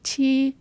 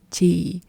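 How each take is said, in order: First: Chị held higher, no sharp drop; chị without the drop. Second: Chị said low with a sharp drop at the end. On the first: Teacher giving learners a likeness to compare, chị high without the drop. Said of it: "It's like chị, but". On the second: Teacher showing learners the word for older female, chị with sharp falling tone. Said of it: "a very sharp drop at the end". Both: Shown as a demonstration.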